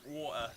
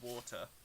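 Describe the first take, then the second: First: The middle t sound is dropped. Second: The middle t sound is clearly pronounced. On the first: The speaker calls it wrong. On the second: The speaker calls it right.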